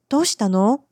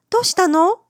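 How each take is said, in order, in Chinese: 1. 这句话是用担心、关心的语气问的。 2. 这句话是用明朗、轻快的语气问的。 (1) "很关心的问他怎么了" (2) "换了个语气问他说どうしたの？有什么好事发生吗？"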